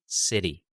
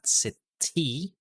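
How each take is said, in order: First: The T is a quick flap like D. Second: The T is a full, clear T sound. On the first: The speaker calls it right. "it sounds like almost like a D sound" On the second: The speaker calls it wrong. "hindi yung traditional T sound"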